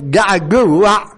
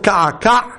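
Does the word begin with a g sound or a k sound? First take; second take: g sound; k sound. First: The word begins with a g sound. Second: The word begins with a k sound.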